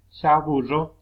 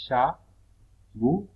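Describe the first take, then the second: First: Said in the usual way. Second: "chaburro" very slow, long pauses between syllables. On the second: Shown as a demonstration. Teacher showing digraphs stay together, "chaburro" syllable by syllable. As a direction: break "chaburro" into loud, separate syllables. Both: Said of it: "Tenemos dígrafos que van juntas".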